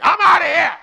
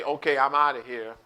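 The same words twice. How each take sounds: First: High, loud storming-out yell; acted angry outburst. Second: Said in the usual way. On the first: Someone making a decision when angry, acted furious yell. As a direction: burst out as if walking out. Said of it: "when you are angry". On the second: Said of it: "would just say".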